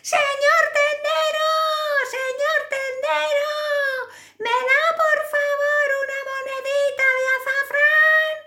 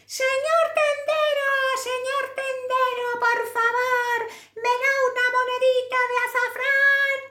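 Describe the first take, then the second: First: It is said at a louder volume. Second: It is said at a softer volume.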